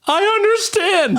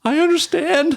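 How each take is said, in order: First: Put-on higher, slower small kid voice; scared little kid. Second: Put-on high small kid voice; scared little kid. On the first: Boy repeating it for the big brother, high timid voice. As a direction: squeak it out even more timidly. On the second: Bullied boy answering the big brother, small high voice. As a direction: squeak it like a frightened boy.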